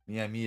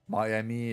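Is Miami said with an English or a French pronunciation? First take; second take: French; English. First: The name is said with a French pronunciation. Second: The name is said with an English pronunciation. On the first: "how you pronounce it in French" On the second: "more English a little bit"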